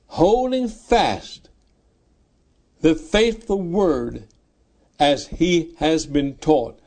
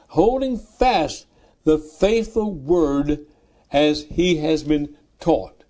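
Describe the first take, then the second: No difference in how they are said.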